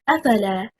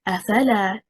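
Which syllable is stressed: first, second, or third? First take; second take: first; second. First: The stress is on the first syllable. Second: The stress is on the second syllable. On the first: It becomes one word. "If we stress on the first حركة and say أفلا" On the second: It becomes two words. "If we stress on the second حركة حركة الفاء and we say أفلا"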